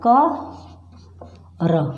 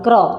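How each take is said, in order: First: The k and r are said as separate sounds. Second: The k and r are blended into one cluster.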